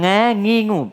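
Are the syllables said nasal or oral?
nasal. The syllables are said through the nose. The speaker calls it wrong.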